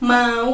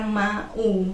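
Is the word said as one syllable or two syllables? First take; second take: one syllable; two syllables. First: The vowels glide together into one syllable. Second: The two vowels are split into separate syllables. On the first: The speaker calls it right. "kalau mau bukan mau" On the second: The speaker calls it wrong. "anakku itu malah bacanya mau"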